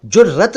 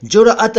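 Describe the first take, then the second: First: जुर्रत with a doubled r; common pronunciation. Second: जुरअत as "jur-at", single r; Urdu pronunciation. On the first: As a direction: say जुर्रत as "jur-rat", rolling into the double r. (जुर्रत का आम उच्चारण, दोहरे र से) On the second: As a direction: break जुरअत after r, then a fresh vowel. (जुरअत का उर्दू उच्चारण, र के बाद अलग अ) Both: Shown as a demonstration. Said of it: "उसका उच्चारण कुछ डिफरेंट है".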